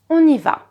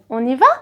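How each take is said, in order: First: The voice falls at the end. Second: The voice rises at the end. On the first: It is a statement. "I'm not saying on y va" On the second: It is a question. "I'm saying on y va?"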